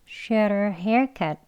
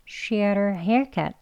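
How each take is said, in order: Both takes have the same delivery.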